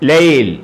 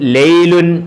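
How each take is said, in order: First: The word stops on a bare final consonant. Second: The word ends with a final -un ending. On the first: "പറയേണ്ടത് ലൈൽ" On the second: "എഴുതിയേക്കുന്നത് ലൈലുൻ"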